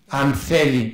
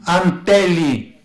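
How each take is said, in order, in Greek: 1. Το ρήμα αρχίζει με ήχο θ. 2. Το ρήμα αρχίζει με απλό ήχο τ.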